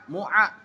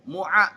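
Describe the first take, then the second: The two takes are said the same way.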